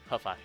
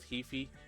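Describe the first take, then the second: First: The first syllable sounds like "huh". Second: The first syllable sounds like "he". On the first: "pronounce that as "huh,"" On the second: "Hefi sounds weird to me"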